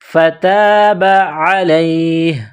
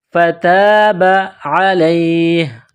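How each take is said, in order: The two takes are said the same way.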